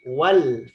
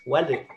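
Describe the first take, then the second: First: The word ends cleanly on the l. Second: An extra vowel is added after the l. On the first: The speaker calls it right. "tapi wal" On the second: The speaker calls it wrong. "Jangan kayak orang India ya"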